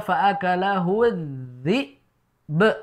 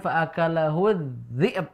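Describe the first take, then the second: First: Both final consonants are clear, ending with a bounce. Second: The final consonants are blurred and not fully released. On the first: The speaker calls it right. "yang benar adalah" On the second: The speaker calls it wrong.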